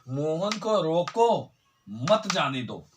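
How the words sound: It is said with a pause after रोको.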